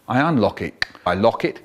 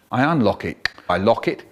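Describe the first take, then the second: No difference in how they are said.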